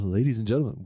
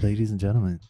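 First: It is said in a radio-announcer voice. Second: It is said in a normal speaking voice.

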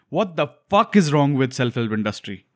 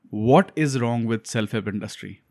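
First: It is said with strong, heated emotion. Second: It is said flatly, without much emotion.

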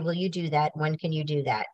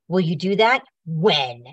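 First: It is said in a calm, respectful tone. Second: It is said in a sharp, demanding tone.

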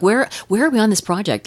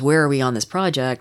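First: The question sounds eager and excited. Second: The question sounds heavy with dread. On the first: The asker can't wait to hear the ideas. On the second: The asker fears what the answer will be.

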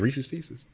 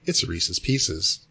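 First: The name is pronounced in a casual, everyday form. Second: The name is pronounced in a careful, deliberate form. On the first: This is the form used naturally in conversation. "when I say it, just in conversation" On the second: This is the form chosen when thinking about it. "when I have to think on it"

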